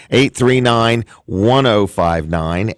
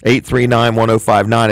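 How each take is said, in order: First: Slowly spelling out each digit; slow, clear phone number read; slow and deliberate. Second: Said in the usual way. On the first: Shown as a demonstration. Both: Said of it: "I want to give you the phone number again".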